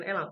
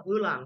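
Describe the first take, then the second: First: "elang" with a clear "é" first; wrong vowel in elang. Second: "elang" with a central "eu" first; correct vowel in elang. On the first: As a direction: open the start of "elang" to "é-lang". ("elang" diawali bunyi é taling) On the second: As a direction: start "elang" on "eu", close to "eu-lang". ("elang" diawali bunyi e pepet) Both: Shown as a demonstration. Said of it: "Bukan elang, elang".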